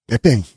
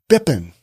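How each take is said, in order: First: The ending is said with a full -ing sound. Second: The ending is clipped to -in without the g.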